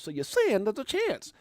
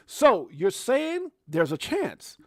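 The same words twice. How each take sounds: First: A bit higher, only slightly slowed; lighter, less drawn-out repeat of the quote; quicker movie quote. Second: Slow, drawn-out movie-line reading; slow, playful quoting of the film line; mock movie quote. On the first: Retold or imitated. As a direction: toss the famous line off again. Quoting the movie line again. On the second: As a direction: savor the famous line slowly.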